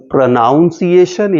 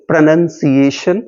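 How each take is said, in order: First: "प्रोनाउंसिएशन" with NOUN in the middle; wrong pronunciation. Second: "प्रोनंसिएशन" with NUN in the middle, rising at the end; correct pronunciation. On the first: Teacher showing what not to say, mispronounced "प्रोनाउंसिएशन" with an ow sound. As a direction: say "प्रोनाउंसिएशन" as pro-NOUN-see-ay-shun. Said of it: "अलग-अलग तरीके से pronounce करते हैं". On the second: Teacher giving the right form to students, "प्रोनंसिएशन" with a short nun. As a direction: say "प्रोनंसिएशन" as pro-NUN-see-ay-shun. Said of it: "न कि प्र". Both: Shown as a demonstration.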